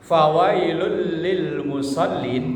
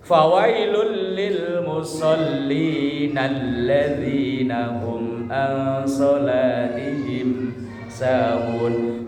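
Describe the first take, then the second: First: The recitation stops dead after 'musallin'. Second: The recitation runs on past 'musallin' without stopping. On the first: It sounds as if those who pray are doomed. The speaker calls it wrong. "Itu kalau dibacanya putus" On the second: Those who neglect their prayer are doomed. The speaker calls it right. "harus disambung"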